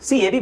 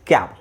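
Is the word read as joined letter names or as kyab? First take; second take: letter names; kyab. First: The word is sounded out from its letter names. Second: The word is said as one syllable, kyab. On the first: The speaker calls it wrong. "ಕೂಡಿಸ್ರಿ ಏನು ಬರುತ್ತೆ ನಿಮಗೆ? CAB ಬರುತ್ತೆ" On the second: The speaker calls it right. "ಸರಿಯಾದ ಉಚ್ಚಾರಣೆ ಏನು?"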